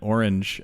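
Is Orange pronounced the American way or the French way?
American. Orange is pronounced with an American accent.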